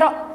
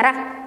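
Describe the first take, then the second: First: The r is heavy, with a deep o-like vowel. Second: The r is light, with a clear a vowel. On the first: The speaker calls it right. "ro-nya dibaca tebal, kedengaran bunyi ro" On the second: The speaker calls it wrong. "bukan dibaca ra"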